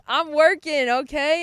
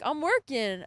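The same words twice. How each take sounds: First: Loud, high, emphatic retold comeback; insistent retort. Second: Raised-pitch, matter-of-fact retold answer; retold reply. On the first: Student defending herself to professor before classmates, loud insistent retort. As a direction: insist on it, much louder. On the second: Student answering professor in lab, mild retold reply. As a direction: answer the professor without pushing it.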